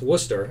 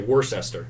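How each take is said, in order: First: It is said the way local people say it. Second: It is said the way a speech engine reads it. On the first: The speaker calls it right. "we know that this is pronounced Worcester" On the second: The speaker calls it wrong. "if you just let the T T S engine run, it's going to say Worcester, which is awful"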